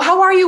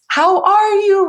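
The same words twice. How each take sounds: First: The phrase is spoken at a fast pace. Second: The phrase is spoken at a slow pace. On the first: "we don't say like" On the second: "So you're slowing down the pace of how you speak to them"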